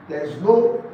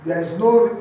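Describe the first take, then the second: No difference in how they are said.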